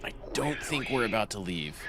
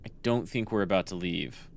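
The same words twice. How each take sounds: First: Eerie machine voice, softer; like a sinister computer; creepy AI voice. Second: Said in the usual way. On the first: Pretend. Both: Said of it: "Creepy A I voice".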